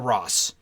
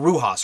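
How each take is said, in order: First: The surname sounds like one syllable, 'Ross'. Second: The surname sounds like two syllables, 'Rujas'. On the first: The speaker calls it wrong. "I'm not sure if that's how you pronounce it" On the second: The speaker calls it right. "I think it's Rujas"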